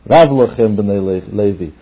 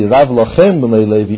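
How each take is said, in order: First: The phrase is said plainly, without extra emphasis. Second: The phrase is said with strong emphasis. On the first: The Levites have a lot already. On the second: It is the Levites themselves who have too much.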